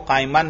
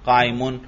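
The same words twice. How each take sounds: First: काइमन ending in an "-an" sound; wrong case ending. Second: काइमुन ending in an "-un" sound; correct case ending. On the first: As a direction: say काइमन with a short a before the final n. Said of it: "देखो काइमन नहीं पढ़ा". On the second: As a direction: say काइमुन with a short u before the final n. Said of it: "बल्कि इल्ला काइमुन". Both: Shown as a demonstration.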